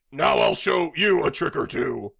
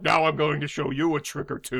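First: Lightly put-on Middle Eastern accent. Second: Lightly dubbed movie villain voice; hammy dubbed bad guy; stupid overdub voice. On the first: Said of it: "Can you also do, uh, Middle Eastern?". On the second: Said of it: "such a stupid overdub voice".

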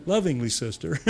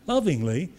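First: Lovingly said through a laugh. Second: Said in the usual way. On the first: Real, not acted. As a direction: chuckle through "lovingly, sister".

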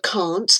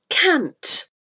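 First: "can't" with a long open ah; broad A in "can't"; British pronunciation. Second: "cant" with a short A, drawn out; short A in "cant", as in "cat"; American pronunciation. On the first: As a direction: say "can't" as "kahnt". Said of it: "Instead of can't". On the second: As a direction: say "cant" to rhyme with "pant", slowly. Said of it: "they call it cant". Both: Shown as a demonstration.

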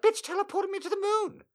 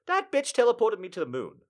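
First: Much higher, pinched disbelief; high mock outrage. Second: Said in the usual way. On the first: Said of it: "I was like". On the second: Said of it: "I'm just gonna say it".

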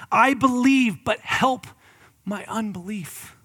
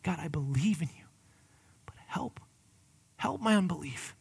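First: Loud, high cry, fading to a slow plea. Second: Hushed, breathy whisper of a plea; whispered prayer. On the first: Acted. Father crying out to Jesus, loud then softening. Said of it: "he cries out". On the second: Shown as a demonstration. Pastor modelling a quiet prayer for his listeners, whispered. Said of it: "that's what we need to utter".

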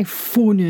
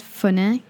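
First: High, overdone "funny" as "foo-nee"; mock "funny" with a long "foo"; exaggerated wrong pronunciation. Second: High "funny" ending in an open "neh"; corrected own pronunciation. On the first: Denying the friend's version, exaggerated "funny". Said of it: "I don't say funny". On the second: Shown as a demonstration. Correcting the friend on how it was said, own "funny". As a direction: insist on "funny" as "fuh-neh". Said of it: "I said funny".

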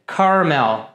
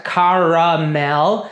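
First: "caramel" in two syllables, karmel; correct pronunciation. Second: "caramel" in three syllables, ka-ra-mel; tempting pronunciation. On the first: Teacher gives students the two-syllable "caramel", karmel. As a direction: drop the middle vowel: "caramel" as karmel. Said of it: "mas na verdade você vai dizer". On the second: Teacher shows the tempting three-syllable "caramel". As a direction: say "caramel" with the middle A fully sounded. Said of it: "talvez você queira pronunciar". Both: Shown as a demonstration.

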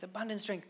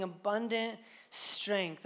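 First: Said in the usual way. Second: "abundant" slow and drawn out; stressed abundant. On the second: Shown as a demonstration. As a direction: lean on "abundant" slowly.

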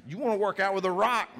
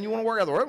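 First: Excited point. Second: Rising emphatic repeat. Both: Real, not acted. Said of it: "preacher repeating his point".

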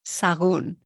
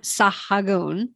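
First: "Sagún" with the H dropped, sa-GOON; silent H. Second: "Sahagun" with an audible H, sa-ha-GOON; H wrongly sounded. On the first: Teacher correcting the sounded H, "Sagún" said sa-GOON. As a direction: say "Sagún" as two syllables, no H at all. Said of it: "Forget the H". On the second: Teacher showing what to avoid, "Sahagun" with the H sounded. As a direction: say "Sahagun" in three syllables, pronouncing the H. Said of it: "Forget the H. So it's not". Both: Shown as a demonstration.

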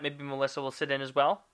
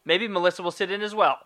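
First: Rising question. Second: Firm statement. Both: Shown as a demonstration. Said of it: "I just have to phrase it differently".

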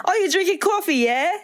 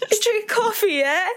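First: Put-on high British accent with rising yeah. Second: Put-on high laughing British accent; British yeah, laughing through it. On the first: To Danny over coffee, high British accent. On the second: To Danny over coffee again, high laughing British accent. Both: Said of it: "we're yelling it too".

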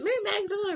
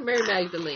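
First: Said in the usual way. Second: Magdalene with a long "ee" at the end; alternate pronunciation. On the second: Shown as a demonstration. Asking the group which way to say it, Magdalene as "Magda-leen". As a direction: rhyme the end of Magdalene with "seen". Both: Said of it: "is it Mary Magdalene or".

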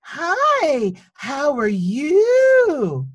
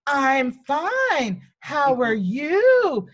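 First: High, slow, overly sweet sing-song greeting; patronizing teacher voice. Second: High, slow copy of her sing-song; mimicking the teacher. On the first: Retold or imitated. Teacher greeting a four-year-old on the first day, high and slow. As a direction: talk down to a small child, syrupy and drawn out. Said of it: "the teacher leans down and she goes". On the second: Child copies the teacher's greeting, high and slow. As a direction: mirror her slow sugary tone right back at her. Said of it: "And so I say".

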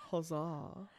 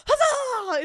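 First: "Huzzah." said low and soft, no lift, understated; flat classic huzzah. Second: Big high cheer, HUZZAH shouted out; excited huzzah. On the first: Friend imitates the real way it's said, quiet and deadpan. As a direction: drop "Huzzah." quietly and dryly. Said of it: "It's just, like, classic". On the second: Friend shows the version she doesn't mean, cheering loudly. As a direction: throw "Huzzah!" out like a rallying cry. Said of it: "It's not even like". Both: Shown as a demonstration.

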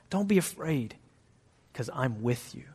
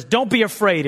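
First: Softer, lower tender comfort; comforting reassurance. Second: Higher, louder bare order; curt command. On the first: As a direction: soothe them gently. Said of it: "You know what he always says?". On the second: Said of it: "God just never says". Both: Shown as a demonstration.

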